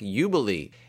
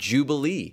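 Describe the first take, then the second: First: The word begins with a Y sound. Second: The word begins with a J sound. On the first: "if you pronounce the J in Jubilee as most other languages do" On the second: "our English word jubilee"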